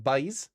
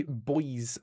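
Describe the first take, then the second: First: Put-on "boys" said like "bays"; Newfoundland pronunciation. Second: Said in the usual way. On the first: Shown as a demonstration. Gamer showing viewers how Newfoundlanders say boys, "boys" as "bays". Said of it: "pronounced like "boys". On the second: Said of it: "they say boys a lot, pronounced like".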